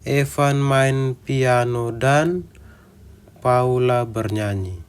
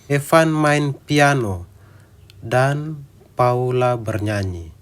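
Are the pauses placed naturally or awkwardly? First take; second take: awkwardly; naturally. First: Pauses fall at other unnatural points. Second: Pauses fall at the natural phrase breaks. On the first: The speaker calls it wrong. "Kita beri jeda sesuai dengan maksudnya" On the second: The speaker calls it right. "kita memberi jeda di tempat yang tepat"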